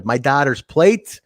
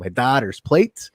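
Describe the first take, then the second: First: Said in the usual way. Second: Put-on slow Scandinavian Minnesota accent, rising at the end. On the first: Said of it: "as Jerry says". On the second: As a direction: stretch "plate" in a Minnesota accent. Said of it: "in his very Scandinavian Minnesota accent".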